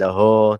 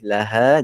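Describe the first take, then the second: First: The final syllable is heavy and thick, like 'ho'. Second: The final syllable is light and thin, like 'ha'. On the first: The speaker calls it wrong. "jangan laho, tak boleh" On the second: The speaker calls it right. "sebutan ha pastikan dia nipis"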